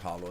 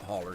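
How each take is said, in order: First: The word ends with an 'oh' sound. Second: The word ends with an 'er' sound. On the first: "maybe it is hollow" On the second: "they just pronounce it holler because they're country"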